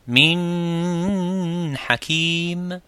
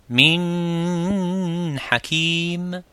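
First: The n is held with heavy nasal resonance. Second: The n is held with heavy nasal resonance.

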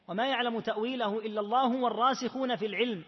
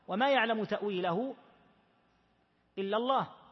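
First: The reading runs on and stops after al-ilm. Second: The reading stops right after the word Allah. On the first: Those firm in knowledge also know its interpretation. "وقرأت الآية بالوقف على قوله تعالى العلم" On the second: Only God knows its interpretation. "قرأت الآية بالوقف هكذا"

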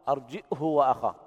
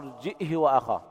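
First: A glottal stop, then h with a short u. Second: A glottal stop, then h with a short i. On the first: "بدون إشباع الهاء" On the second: "بالهمزة مع إسكانها وكسر الهاء بدون صلتها"

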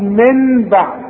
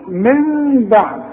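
First: The n is clear with the tongue striking the palate. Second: The nasal m is soft with lips slightly apart. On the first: The speaker calls it wrong. "مش هضرب لساني في حلق بقي واقول من بعد" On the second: The speaker calls it right. "هيحصل انفراج في الشفايف"

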